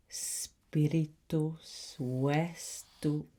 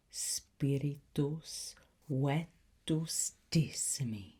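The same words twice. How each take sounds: First: Spiritus vestu- cut off mid-word by the stumble; slip of the tongue. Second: Said in the usual way. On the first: Acted. Tutor fumbling the incantation. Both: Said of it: "Even I got that wrong".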